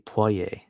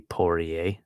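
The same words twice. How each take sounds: First: It is said with a French accent. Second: It is said with an English accent. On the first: The speaker calls it right. "that French accent that it deserves" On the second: The speaker calls it wrong. "we all say it so with with such an Anglo accent"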